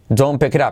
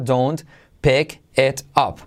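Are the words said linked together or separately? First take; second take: linked; separately. First: The words run together with sounds linked. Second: Each word is said separately and clearly. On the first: "Todo junto" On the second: "Vamos a decirlo primero por separado"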